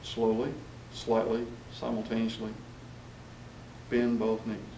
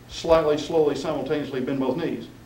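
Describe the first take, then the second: First: There are clear pauses after each adverb. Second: The words run together without pauses. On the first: The speaker calls it right. "you want the pause after the adverbs" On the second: The speaker calls it wrong. "it just runs all together"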